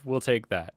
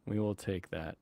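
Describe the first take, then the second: First: Said in the usual way. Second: Will stressed, whole line dropped much softer. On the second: Shown as a demonstration. Repeating the line to himself, hushed stress on will. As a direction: lean on "will" quietly.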